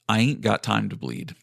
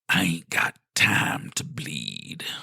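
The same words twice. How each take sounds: First: It is said in the speaker's normal voice. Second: It is said in a put-on character voice.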